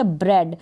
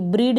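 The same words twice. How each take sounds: First: ब्रेड with an open e, "bred"; correct pronunciation. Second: ब्रीड with a long ee, "breed"; long-vowel mistake "breed"; wrong pronunciation. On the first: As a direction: say ब्रेड to rhyme with red. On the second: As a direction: misread ब्रीड to rhyme with need. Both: Shown as a demonstration. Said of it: "ब्रीड नहीं पढ़ेंगे इसको".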